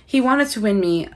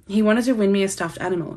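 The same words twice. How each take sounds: First: Put-on reading aloud in a light American accent. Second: Said in the usual way. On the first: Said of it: "read this in an American accent". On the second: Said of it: "why do I read this in an American accent".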